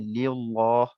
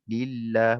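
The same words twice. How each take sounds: First: The L sound is heavy and thick. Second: The L sound is light and thin. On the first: The speaker calls it wrong. "lam tu jadi tebal. Ha, tak tepat lah" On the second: The speaker calls it right. "maka kita akan baca nipis lah"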